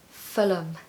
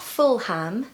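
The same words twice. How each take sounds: First: The ending is pronounced as a weak 'um'. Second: The ending is pronounced as a full 'ham'. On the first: The speaker calls it right. "places ending in H A M or ham are actually usually pronounced as um" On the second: The speaker calls it wrong. "So it's not Fulham"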